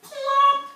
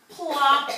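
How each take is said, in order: First: High, loud cartoon plop; bright plop for little listeners; plop sound effect. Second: Loud plop, less high; second landing plop. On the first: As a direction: pop the landing out high and loud. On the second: Acted. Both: Frog lands on lily pad.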